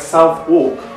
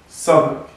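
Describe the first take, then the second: First: The name is said as two clear words. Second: The name is run together and shortened. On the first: This is how the spelling looks. The speaker calls it wrong. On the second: This is how locals say the name. The speaker calls it right.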